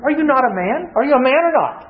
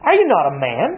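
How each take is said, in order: First: Higher, goading challenge; mocking taunt. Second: Said in the usual way. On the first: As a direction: needle him about his manhood. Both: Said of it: "Men don't like to hear that question".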